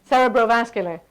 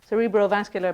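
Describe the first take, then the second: First: It is said with a lighter American pronunciation. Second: It is said with a British pronunciation. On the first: "the American one is ... with a, a lighter sound" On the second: "So we said cerebro"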